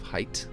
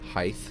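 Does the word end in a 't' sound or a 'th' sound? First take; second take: t; th. First: The word ends with a plain 't' sound. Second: The word ends with a 'th' sound. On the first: This is the standard way of saying it. The speaker calls it right. "instead of height" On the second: This is the local regional way of saying it. The speaker calls it wrong. "Do people where you guys live say height"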